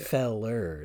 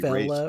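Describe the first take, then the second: First: The word ends with an r-sound. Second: The word ends with a plain vowel. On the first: The speaker calls it wrong. "It's not feller. That's not good" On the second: The speaker calls it right. "usually fella or fellas"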